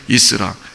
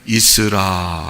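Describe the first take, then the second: First: It is said loudly and forcefully. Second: It is said softly and calmly.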